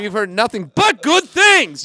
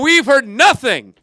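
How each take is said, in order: First: The stress falls on the word good. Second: The stress falls on the word nothing. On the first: The phrase sounds positive. The speaker calls it right. "You want to enunciate the positive, not the negative" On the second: The phrase sounds negative. The speaker calls it wrong. "because he goes"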